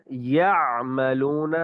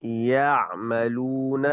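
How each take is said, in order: First: یعملون with the ayn choked in the throat; strangled ayn. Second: یعملون slow, ayn open and unforced; correct ayn. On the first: Teacher shows the mistake: a squeezed throat. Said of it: "اس طرح گلا گھوٹ کر پڑھنا یہ ٹھیک نہیں". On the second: Teacher shows the right ayn, slow and clear. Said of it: "صحیح تلفظ کے ساتھ ادائیگی کریں گے". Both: Shown as a demonstration.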